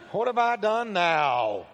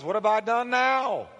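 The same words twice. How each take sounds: First: Slow, drawn-out put-upon protest; exaggerated little brother. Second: Higher-pitched, put-upon protest; whining little brother. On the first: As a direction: stretch out the kid brother's complaint. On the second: Acted. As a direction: protest like a kid brother blamed yet again. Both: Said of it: "You can hear a little brother in there".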